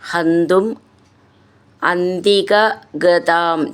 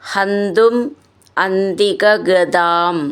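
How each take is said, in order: Both takes have the same delivery.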